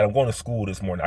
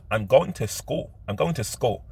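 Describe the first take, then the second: First: "school" with heavy emphasis on the O; stressed Philly O. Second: "school" with the O dropped, not leaned on; unstressed O. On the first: Explaining their own Philly way, "school" with a stressed-out O. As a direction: lean hard on the O in "school", Philly style. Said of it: "put a lot of emphasis on the O". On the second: Showing the "school" they can't say, O left unstressed. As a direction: say "school" with a light, unemphasised O. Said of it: "I can't say school". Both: Shown as a demonstration.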